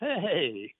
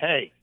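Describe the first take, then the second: First: It sounds like a friendly, good-natured greeting. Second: It sounds like an annoyed, hostile greeting.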